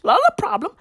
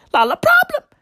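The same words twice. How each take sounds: First: Pitched up and mocking, much higher; a high mocking echo; mock high repeat. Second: A high mocking squeal. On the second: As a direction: push the mock way up into a squeal. Mocking repeat climbs further.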